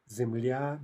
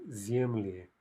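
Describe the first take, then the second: First: Земля with stress on the final я; stress on last syllable. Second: Земли with stress on the е; stress on first syllable. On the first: Teacher showing the singular, Земля stressed on the ending. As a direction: slowly land on the end of Земля. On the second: Teacher showing stress jumping back, земли stressed up front. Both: Shown as a demonstration. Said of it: "Stress jumps back".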